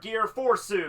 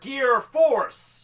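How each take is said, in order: First: Fourth is said with a Japanese-style added vowel. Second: Fourth is said with its th softened.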